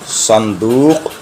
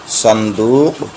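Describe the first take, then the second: No difference in how they are said.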